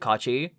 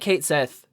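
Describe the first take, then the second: First: It is said like 'Kachi', two syllables. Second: It is said like 'Kate Sith', two syllables. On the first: The speaker calls it right. "They they just pronounce it Kachi" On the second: The speaker calls it wrong. "We know it's wrong"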